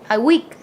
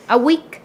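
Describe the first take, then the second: No difference in how they are said.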